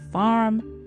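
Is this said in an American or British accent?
American. The r after the vowel is clearly pronounced.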